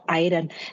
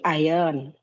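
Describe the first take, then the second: First: The word is pronounced following its spelling. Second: The word is pronounced like native speakers say it. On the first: The speaker calls it wrong. "it is not iron" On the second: The speaker calls it right. "It should be iron"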